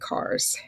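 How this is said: It is said with a Californian accent. "Where I come from, we say cars"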